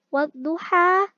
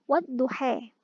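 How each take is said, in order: First: The final vowel is an open 'a' sound. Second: The final vowel is tilted toward an 'e' sound. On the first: "Contoh pada lafaz wadduha" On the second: "bisa dibaca wadduhe"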